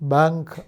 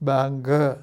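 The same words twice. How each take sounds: First: The word ends sharply on the final consonant. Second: The word ends with an added short vowel. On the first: This is how a native English speaker says it. "അവൻ ഇംഗ്ലീഷുകാരൻ ബാങ്ക് എന്നേ പറയുള്ളൂ" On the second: This is how a Malayalam speaker has to say it. "ബാങ്ക് എന്ന് പറയേണ്ടി വരും"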